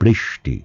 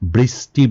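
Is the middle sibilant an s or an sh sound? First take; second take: sh; s. First: The middle sibilant is an sh sound. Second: The middle sibilant is a plain s sound. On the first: The speaker calls it right. "আমরা বলবো বৃষ্টি" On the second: The speaker calls it wrong. "আমরা বৃষ্টি বলবো না"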